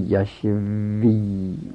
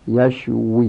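First: The consonant after 'sh' is a lip-teeth 'v'. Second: The consonant after 'sh' is a rounded-lip 'w'. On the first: The speaker calls it wrong. "یشوی نگی ها، وی با لب دندون میشه" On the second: The speaker calls it right. "همش به لب"

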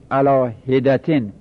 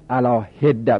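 First: The d is single and it ends in -tan. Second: The d is doubled and there is no -tan ending. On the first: The speaker calls it right. "علا هدتن اینجا تشدید نمیخواد" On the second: The speaker calls it wrong. "نگید علا هده"

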